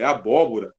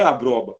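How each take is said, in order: First: "abóbora" in four syllables, stressed on bó; correct pronunciation. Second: "abroba" with the r moved up into a br cluster; mispronounced abóbora. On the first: Teacher correcting a diction error, properly pronounced "abóbora". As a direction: say "abóbora" with every syllable, r in the last one. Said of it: "Não é abroba, é abóbora". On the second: Teacher repeating the wrong form for contrast, mispronounced "abroba". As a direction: say "abroba" in three syllables, swallowing part of abóbora. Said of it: "é abóbora". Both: Shown as a demonstration.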